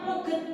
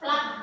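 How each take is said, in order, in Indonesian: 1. Kata itu diucapkan dengan dua suku kata. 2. Kata itu diucapkan dengan satu suku kata. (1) "tulisannya pluget, tapi bacanya bukan seperti itu" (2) "Ini bahasa Inggris bacanya plug"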